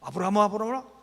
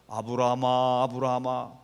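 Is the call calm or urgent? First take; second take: urgent; calm. First: It is shouted urgently and sharply. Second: It is called out calmly and gently.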